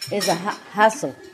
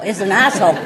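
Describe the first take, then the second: First: The h at the start of hassle is pronounced. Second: The h is dropped, so hassle sounds like asshole. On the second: "They don't pronounce the H, But they pronounce like asshole"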